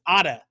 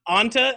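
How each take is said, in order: First: The first part is said without an n sound. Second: The first part is said with an n sound. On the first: The speaker calls it right. "it's Ada de Kumbo. That's how you pronounce" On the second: The speaker calls it wrong. "it's not Anta at the beginning"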